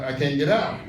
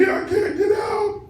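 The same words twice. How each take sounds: First: Said in the usual way. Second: Very high, slow, drawn-out mock scream; retold frantic shriek. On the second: Trapped daughter crying to her mother on the phone, retold frantic shriek. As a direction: wail it out in hammed-up terror.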